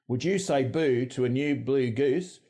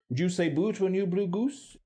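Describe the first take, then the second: First: It is said in an Australian accent. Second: It is said in an RP accent.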